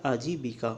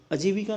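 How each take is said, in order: First: आजीविका with long opening aa; corrected form. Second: अजीविका with short opening a; incorrect form. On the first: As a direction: say आजीविका as "aa-jee-vika". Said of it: "ये होता है आजीविका". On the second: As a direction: say अजीविका as "a-jee-vika". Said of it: "अजीविका नहीं होता". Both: Shown as a demonstration.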